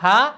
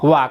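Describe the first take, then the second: First: The syllable begins with an h sound. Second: The syllable begins with a w sound. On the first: It is the letter's usual reading everywhere else. "লিখেছি আমরা হা" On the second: It is used as the topic particle after the subject. "বলছে কি ওয়া"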